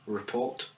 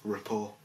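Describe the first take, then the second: First: The final T sound is pronounced. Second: The final T sound is silent. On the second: "Do it again without the T"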